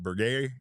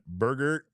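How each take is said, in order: First: "Berger" ending in an open "ay", bur-GAY; alternative pronunciation. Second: "Berger" said English-style, BUR-gur; first pronunciation. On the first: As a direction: try "Berger" as bur-GAY, dropping the final r. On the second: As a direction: say "Berger" with an r-coloured final syllable, BUR-gur. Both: Shown as a demonstration. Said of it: "or is it Berger".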